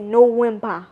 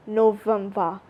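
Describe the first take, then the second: First: NOVEMBER in Burmese accent, "no-WIN-ba". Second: NOVEMBER with a clear V; English pronunciation. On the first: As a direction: say NOVEMBER with W replacing V. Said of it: "November in Burmese accent". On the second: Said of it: "But we say November". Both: Shown as a demonstration.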